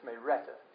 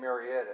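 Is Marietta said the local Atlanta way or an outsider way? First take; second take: local; outsider. First: It is said with the local Atlanta pronunciation. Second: It is said with a non-local pronunciation. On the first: This is how people in Atlanta say it. The speaker calls it right. "It's Marietta" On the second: This is not how people in Atlanta say it. The speaker calls it wrong. "They don't say Marietta"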